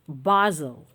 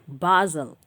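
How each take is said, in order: First: The word is said in a British accent. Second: The same.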